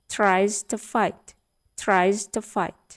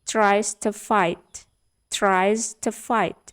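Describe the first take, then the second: No difference in how they are said.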